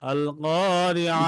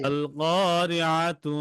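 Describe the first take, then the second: First: The word ends with a soft h sound. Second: The word ends with a full -tu syllable. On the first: The reading stops on this word. "আইনের উচ্চারণ করে পরে হা হবে" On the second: The reading continues without stopping. "টেনে গেলে তাতে কি হবে না, ওয়াকফ হবে না, তা পুরোটাই পড়তে হবে"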